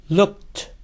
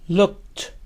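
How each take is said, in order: Both takes have the same delivery.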